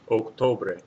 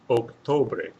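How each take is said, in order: No difference in how they are said.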